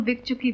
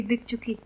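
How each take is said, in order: First: Said in the usual way. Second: Softly spoken, resigned echo; quiet finality. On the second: Acted. Repeats it with finality. (धीमे, हार मानकर दोहराना)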